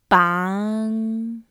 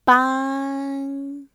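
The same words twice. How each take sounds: First: The syllable has a mid rising pitch. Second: The syllable has a high level pitch. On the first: It means to tie up. "Mid rising pitch" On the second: It means to help. "High pitch"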